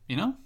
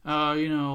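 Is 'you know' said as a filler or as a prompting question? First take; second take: prompting; filler. First: It is said as a prompting question. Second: It is said as a passing filler. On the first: The listener is being asked to agree. "Prompting you" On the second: It only fills space without meaning. "I don't know what I'm saying right now"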